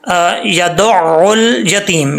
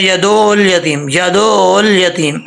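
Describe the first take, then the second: First: यदउल slowly with the ain; the right pronunciation; correct reading. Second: यदउल with hamza instead of ain; the common error; wrong reading. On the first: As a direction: say यदउल यतीम slowly and clearly. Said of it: "अब ये देखें". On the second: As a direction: show the mistaken यदउल यतीम. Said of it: "ऐसा नहीं पढ़ना". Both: Shown as a demonstration.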